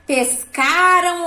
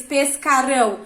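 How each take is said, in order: First: PESCARAM with stressed, stretched CA; past-tense ending demo. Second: PESCARÃO stressed on final RÃO; future-tense ending demo. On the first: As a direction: stress CA in "pescaram", let final -ram fall away. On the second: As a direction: land on the -ÃO of "pescarão" as the contrasting choice. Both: Shown as a demonstration. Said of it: "se tá no passado ou no futuro".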